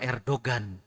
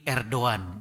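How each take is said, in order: First: The G in the middle is clearly pronounced. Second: The G in the middle is not pronounced. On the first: The speaker calls it wrong. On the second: The speaker calls it right.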